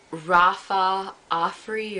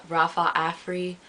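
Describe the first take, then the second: First: Slow "Rafa Afri", Afri opening on "ah"; alternate pronunciation. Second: "Rafa Afri" with Afri opening like "Africa"; alternate pronunciation. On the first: Vlogger unsure of a hair brand's name, slow AH sound starting "Afri". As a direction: say "Afri" as AH-free, drawn out in "Rafa Afri". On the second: Vlogger offers another way to say the brand, short-a "Afri". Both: Shown as a demonstration. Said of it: "however you wanna say it".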